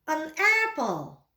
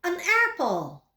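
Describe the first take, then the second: First: An apple said slowly with a full stop; slow repeat. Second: Said in the usual way. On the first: Shown as a demonstration. Teacher repeats An apple slowly for the class. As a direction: drag out An apple for learners. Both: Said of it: "Mari ikuti saya".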